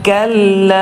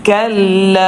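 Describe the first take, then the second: No difference in how they are said.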